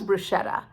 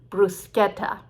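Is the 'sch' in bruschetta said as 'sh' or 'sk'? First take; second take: sh; sk. First: The middle consonant sounds like 'sh'. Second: The middle consonant sounds like 'sk'. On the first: "we don't call it the Italian way" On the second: "the Italian way"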